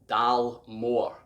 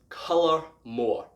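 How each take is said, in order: First: The first syllable sounds like 'dal'. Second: The first syllable sounds like 'col'. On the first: The speaker calls it wrong. "you'd expect the first three letters to say Dal" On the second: The speaker calls it right. "it's actually pronounced Colour More"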